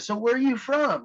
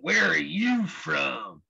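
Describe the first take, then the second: First: It is asked in a friendly, curious tone. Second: It is asked in a hostile, suspicious tone.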